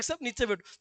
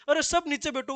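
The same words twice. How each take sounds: First: Said in the usual way. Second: Mock shout. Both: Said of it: "वो खड़ा होके कहता है".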